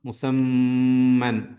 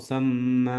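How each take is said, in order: First: The word ends with an n sound. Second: The word ends on a plain vowel. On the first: The recitation continues without stopping. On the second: The recitation stops at this word.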